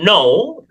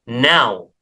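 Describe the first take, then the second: First: The vowel is a plain 'oh' sound. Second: The vowel glides from 'ah' to 'oo'. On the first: The speaker calls it wrong. "Jadi bukan no" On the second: The speaker calls it right. "tetapi a. Kita bisa melihat di sini simbolnya a"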